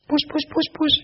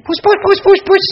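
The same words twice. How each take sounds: First: High sing-song kitty call; calling the cat. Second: High, loud kitty call; calling the cat louder. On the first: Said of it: "she thought she'd call out". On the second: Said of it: "And she called out again". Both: Retold or imitated.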